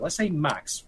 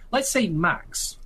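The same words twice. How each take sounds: First: Said in the usual way. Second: Let's say Max drawn out slowly and higher, hypothetical. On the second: Shown as a demonstration. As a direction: stretch out let's say Max, musing. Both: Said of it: "let's just hypothesize it".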